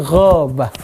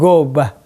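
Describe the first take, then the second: First: It starts with a throaty, rasping gh sound. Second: It starts with a plain hard g sound. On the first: The speaker calls it right. "tapi ghabah" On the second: The speaker calls it wrong. "bukan gobah"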